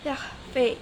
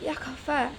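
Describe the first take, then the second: First: The final vowel is shifted toward 'eh'. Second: The final vowel is an open 'ah' sound.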